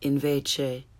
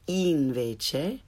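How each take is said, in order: First: The i vowel is lax, like English 'ih'. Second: The i vowel is tense, like English 'ee'. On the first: The speaker calls it wrong. "Rather than invece" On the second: The speaker calls it right. "say invece"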